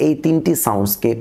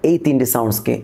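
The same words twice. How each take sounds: The two takes are said the same way.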